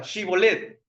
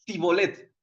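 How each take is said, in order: First: Shibolet said with a clear sh sound at the start; says shibolet. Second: Sibolet said with a plain s, no sh; says sibolet. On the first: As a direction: say shibolet as shi-bo-let, leaning on the sh. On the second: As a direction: say sibolet as si-bo-let, the sh dropped. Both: Retold or imitated. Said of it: "entonces di esta palabra".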